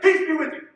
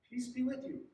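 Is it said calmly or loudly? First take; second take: loudly; calmly. First: It is said loudly and abruptly. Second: It is said softly and calmly.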